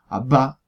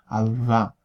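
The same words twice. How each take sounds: First: The lips close fully, then air bursts out. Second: The lips stay slightly open, letting air through. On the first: "con una verdadera oclusiva" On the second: "en la expirante yo puedo mantener el soplo de aire"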